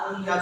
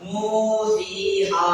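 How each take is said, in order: First: The long vowels are cut short. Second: The long vowels are clearly stretched out. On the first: The speaker calls it wrong. "நூஹியா நூஹியா சொல்லக்கூடாது" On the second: The speaker calls it right. "இத வந்து ஒரு அலிஃப் நீட்டி சொல்லணும்"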